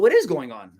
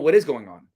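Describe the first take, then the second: First: The pitch is high and rises upward. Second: The pitch goes downward and falls. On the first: The speaker invites the other person to explain. The speaker calls it right. "I do it with a high pitched sound" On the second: The speaker is challenging the other person. The speaker calls it wrong. "a downward tone means you're challenging that person"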